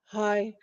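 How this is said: It sounds dazed and flat.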